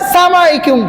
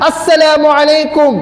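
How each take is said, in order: First: The greeting is clipped, with syllables dropped and run together. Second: The greeting is said in full, with every syllable. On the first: The speaker calls it wrong. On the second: The speaker calls it right.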